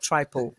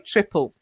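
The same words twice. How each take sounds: First: The first syllable sounds like 'try'. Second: The first syllable sounds like 'trip'. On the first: The speaker calls it wrong. "not triple. I know we say try often" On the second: The speaker calls it right. "it's actually triple"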